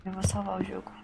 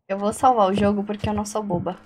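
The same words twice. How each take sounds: First: "Eu vou salvar o jogo" in a breathy whisper. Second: Said in the usual way. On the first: Real, not acted. Player whispering her plan to save the game. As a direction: whisper it to yourself. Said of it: "repeats it whispered". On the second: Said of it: "whispered repeat".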